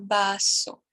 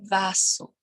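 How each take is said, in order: First: The word begins with a B sound. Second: The word begins with a V sound. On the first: The speaker calls it right. "Por isso que eu digo baço" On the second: The speaker calls it wrong. "e não vaso"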